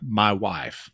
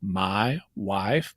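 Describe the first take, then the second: First: "My wife" with vowels between ah and I; Ozark my wife. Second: "my wife" with the ah-I blend, rising; Ozark my wife. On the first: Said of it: "a classic phrase using that". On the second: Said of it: "you can hear how there's some I in". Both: Shown as a demonstration.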